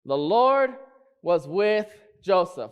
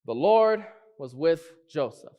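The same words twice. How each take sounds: First: Emphatic "Lord"; stress on Lord. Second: Said in the usual way. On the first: Shown as a demonstration. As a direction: punch "Lord", then land the rest slowly. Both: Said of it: "What am I trying to say?".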